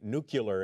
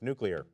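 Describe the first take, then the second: First: It is said as 'nucular', with an extra vowel. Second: It is said as 'nuclear', the standard way. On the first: The speaker calls it wrong. "Mispronouncing the word Corman is more like saying nuclear" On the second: The speaker calls it right. "instead of nuclear"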